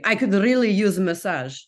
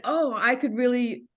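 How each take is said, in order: First: Imitating a Russian man's English; mock Russian-accented English; thick Russian accent. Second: Said in the usual way. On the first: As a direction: put on a Russian accent, retelling his words. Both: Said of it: "I'll do the accent for you".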